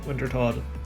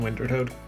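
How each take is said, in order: First: The second word sounds like 'tod'. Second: The second word sounds like 'toad'. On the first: The speaker calls it right. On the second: The speaker calls it wrong. "Keep saying that wrong"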